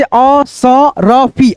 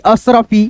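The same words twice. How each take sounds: First: Slow, broken into syllables; Asarfi stretched slowly for learners; sounding out. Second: Said in the usual way. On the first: Shown as a demonstration. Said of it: "उसके बाद से असरफी".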